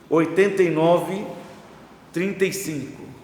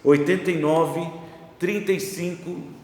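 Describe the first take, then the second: First: It is said slowly and deliberately. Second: It is said at normal, quicker speed.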